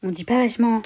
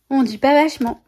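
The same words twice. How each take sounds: First: Quoting La Boum. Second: "vachement" hit higher and louder, falling at the end; a mock telling-off, pitched up on "vachement"; scolding quote from La Boum. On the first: Retold or imitated. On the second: Quoting a film to her viewers, with a mock scolding stress on "vachement". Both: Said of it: "Ça me fait penser au film La Boum".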